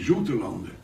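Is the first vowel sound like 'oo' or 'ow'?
oo. The first vowel sounds like 'oo'. This is how the islanders say it in dialect. "They all say Zoetelanden, because it is our pronunciation in a dialect of the O U is an U"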